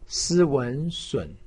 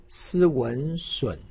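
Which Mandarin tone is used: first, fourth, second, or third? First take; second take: third; third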